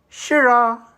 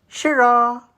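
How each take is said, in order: The two takes are said the same way.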